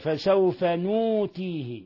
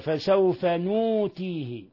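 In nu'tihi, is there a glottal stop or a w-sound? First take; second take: w-sound; w-sound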